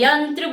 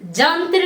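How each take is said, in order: First: The word begins with a y sound. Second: The word begins with a j sound. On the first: The speaker calls it right. "यंत्र बोलना है" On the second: The speaker calls it wrong. "जंत्र नहीं बोलना है"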